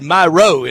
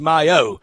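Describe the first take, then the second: First: An R sound follows the first syllable. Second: No R sound follows the first syllable. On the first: The speaker calls it wrong. "I had myro in there" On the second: The speaker calls it right. "when it's myo"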